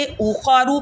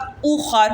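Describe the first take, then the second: First: Said in the usual way. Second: اوخر ending on a still r, no final vowel; stopped ending. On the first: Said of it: "پر وقف کرتے وقت". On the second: Shown as a demonstration. Teacher showing girls how to pause, اوخر with silent ending. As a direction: close اوخر on the consonant. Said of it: "وقف کرتے وقت".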